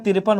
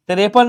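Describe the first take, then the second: First: "तिरपन" said tir-pan, two syllables; correct short i. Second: "तिरपन" said te-re-pan, with an e after r; three syllables in "तिरपन", te-re-pan; wrong e vowel. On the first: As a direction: close r straight onto pan in "तिरपन". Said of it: "तिरपन होता है". ("तिरपन" में र के बाद स्वर नहीं, तिर-पन) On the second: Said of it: "तिरपन नहीं होता है". ("तिरपन" को "तिरेपन" जैसा गलत बोलें) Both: Shown as a demonstration.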